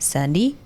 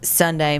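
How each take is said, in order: First: The last syllable is pronounced 'dee'. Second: The last syllable is pronounced 'day'. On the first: "they say like Sunday?" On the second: "rather than saying like Sunday"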